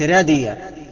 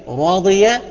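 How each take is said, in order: First: The r sound is light and thin. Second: The r sound is heavy and full. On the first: The speaker calls it wrong. "بقولش رادية" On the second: The speaker calls it right. "تفخم إذا كانت مفتوحة زي راضية"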